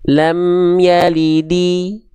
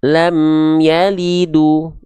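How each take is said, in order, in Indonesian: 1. Kata terakhir diakhiri dengan vokal 'i'. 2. Kata terakhir diakhiri dengan vokal 'u'. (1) "nggak dibaca" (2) "ataupun lam yalidu. Nggak"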